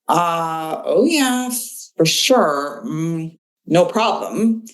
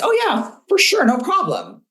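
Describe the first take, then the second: First: It sounds hesitant and reluctant. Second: It sounds confident and willing.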